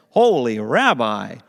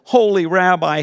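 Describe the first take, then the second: First: Grateful Batman voice. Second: Loud, high dramatic superhero plea; Batman voice. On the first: Grateful man thanks the rabbi. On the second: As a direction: cry out to the rabbi like Batman in a panic. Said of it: "in his best Batman voice". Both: Acted.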